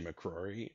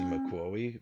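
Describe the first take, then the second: First: The second r in the name is a clear r. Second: The second r in the name sounds like w. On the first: The speaker calls it right. "I can say McCrory" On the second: The speaker calls it wrong. "couldn't pronounce it, so I was Dawsey McCrowey"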